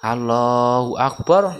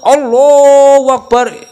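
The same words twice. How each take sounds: First: The phrase is said softly. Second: The phrase is said loudly. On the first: The prayer leader says it quietly. "imame lirih" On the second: The follower says it louder than the prayer leader. "tidak boleh lebih keras daripada imame"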